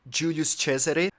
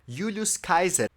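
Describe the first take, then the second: First: It is pronounced the Italian, church way. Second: It is pronounced the reconstructed classical way. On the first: "writing in Latin but speaking in Italian" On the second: "reconstructed Latin"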